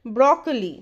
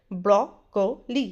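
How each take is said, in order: First: "ब्रोकोली" run together as BRAW-kuh-lee; correct pronunciation. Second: "ब्रोकोली" slowly, BRAW, ko, lee; correct pronunciation, syllabified. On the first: Teacher telling learners to listen, correct "ब्रोकोली" as BRAW-kuh-lee. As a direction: say "ब्रोकोली" in one smooth word, falling at the end. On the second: Teacher showing learners broccoli, slow syllable-by-syllable "ब्रोकोली". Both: Shown as a demonstration. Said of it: "correct pronunciation है".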